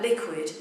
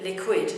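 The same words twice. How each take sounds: First: Said in the usual way. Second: "liquid" with the beat moved to the second syllable; odd misplaced stress. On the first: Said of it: "If you called it liquid". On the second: Shown as a demonstration. Teacher showing how rhythm shapes a word, misplaced stress. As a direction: wrongly stress the end of "liquid". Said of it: "the word sound a bit odd".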